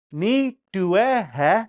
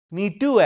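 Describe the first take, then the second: First: "Ni due he" slowly, a gap after each word; separate words. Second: "Ni due he" joined up as one word, higher; run into one word. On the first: Learner sounding out Dakota for grandpa, slow word by word. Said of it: "Like that". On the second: Showing grandpa's way of saying it, words run together. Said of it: "he put it into one word". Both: Shown as a demonstration.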